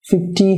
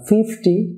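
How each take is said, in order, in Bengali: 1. Stress দ্বিতীয় সিলেবলে। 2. Stress প্রথম সিলেবলে। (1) "fifty হবে না" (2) "প্রথম সিলেবলটি লাউডার এবং লঙ্গার হবে"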